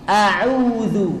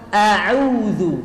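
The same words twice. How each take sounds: Both takes have the same delivery.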